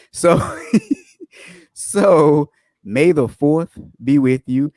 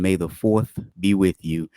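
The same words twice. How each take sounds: First: Slow, giggly sign-off greeting; laughing, drawn out. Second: Said in the usual way. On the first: Shown as a demonstration. Host repeats the Star Wars greeting to viewers, slow and laughing. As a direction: stretch it out through a laugh.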